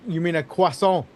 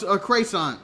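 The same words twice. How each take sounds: First: Croissant said kwa-son, French style. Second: Croissant said as kreysahn, anglicized wrong on purpose; deliberately mispronounced croissant. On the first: Correcting the co-host's croissant with a French kwa-son. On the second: To the co-host, botching croissant on purpose as a joke. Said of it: "I said it wrong just to say it wrong". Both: Shown as a demonstration.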